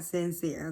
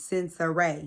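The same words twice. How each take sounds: First: Said in the usual way. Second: Sincere said sin-suh-RAY; Sincere in three syllables, last one RAY; three-syllable name pronunciation. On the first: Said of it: "her name is Sincere". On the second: Shown as a demonstration. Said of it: "not Sincere, okay?".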